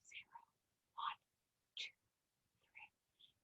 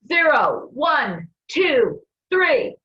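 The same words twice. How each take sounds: First: The counting is said very quietly. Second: The counting is yelled loudly.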